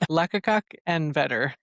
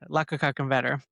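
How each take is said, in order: First: The phrase is spoken slowly and deliberately. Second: The phrase is spoken at a normal pace.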